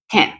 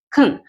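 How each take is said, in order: First: The word has a full, clear vowel. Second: The vowel is reduced to a quick schwa. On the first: The word is being emphasized. "si yo quiero enfatizar, voy a utilizar esta pronunciación" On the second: The word is not being emphasized. "la pronunciación es muy rápida y es muy corta"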